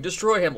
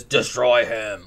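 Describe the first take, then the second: First: Said in the usual way. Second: Drawn-out, menacing mock command; satanic command. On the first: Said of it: "like, going". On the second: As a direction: stretch it out slowly like an evil figure. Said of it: "Like, like that".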